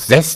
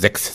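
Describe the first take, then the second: First: The word is pronounced in its Low German form. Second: The word is pronounced in its Standard German form. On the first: "das ist richtig Niederdeutsch" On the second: "Hochdeutsch müsste man sechs sagen"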